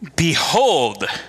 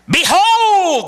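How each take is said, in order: First: It is said more softly. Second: It is said very loudly.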